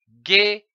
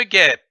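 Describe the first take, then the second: First: "guêpe" in two separate beats, guê, then pe; split into syllables. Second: Said in the usual way. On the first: Shown as a demonstration. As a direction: say "guêpe" syllable by syllable, pausing between. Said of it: "L'association de ces syllabes".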